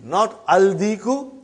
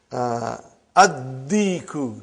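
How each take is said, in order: First: Aldiku with a clear l before d; wrong form with lam. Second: Addiku, lam silent, doubled d; addiku, not aldiku: drop the l sound; assimilated lam. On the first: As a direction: say aldiku, sounding the l, as the mistake. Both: Shown as a demonstration.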